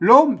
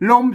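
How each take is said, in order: First: It is said with the tri tone. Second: It is said with the saman (level) tone. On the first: "ลมเสียงตี" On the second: "ลมสามัญ"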